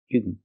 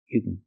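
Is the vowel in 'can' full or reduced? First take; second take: reduced; reduced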